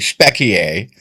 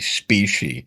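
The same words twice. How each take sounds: First: The word is said with a Latin-style pronunciation. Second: The word is said with an American pronunciation. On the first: "that's the Latin pronunciation" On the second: "Americans would say specie"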